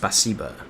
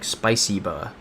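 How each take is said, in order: First: The first syllable sounds like 'spa'. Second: The first syllable sounds like 'spy'. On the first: The speaker calls it right. "but it's spasiba" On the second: The speaker calls it wrong. "I was saying it like spiciba"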